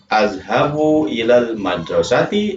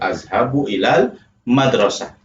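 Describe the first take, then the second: First: The last word ends with a full 'ati' syllable. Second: The last word ends with a short 'ah' sound. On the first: "Jadi boleh azhabu ilal madrasati" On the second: "atau azhabu ilal madrasah"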